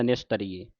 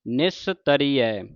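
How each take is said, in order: First: ਨਿਸਤਰੀਏ with the final e sound, the mistake; ਨਿਸਤਰੀਏ ending in e, wrong way; wrong pronunciation demo. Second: ਨਿਸਤਰੀਐ slowly with the final ai sound; ਨਿਸਤਰੀਐ slow, ai ending; correct pronunciation. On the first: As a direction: show ਨਿਸਤਰੀਏ ending in e as the error. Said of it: "ਜੇ ਨਿਸਤਰੀਏ ਪੜ੍ਹਦਾ". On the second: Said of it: "ਇਹਨੂੰ ਪੜ੍ਹਨ ਨਿਸਤਰੀਐ". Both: Shown as a demonstration.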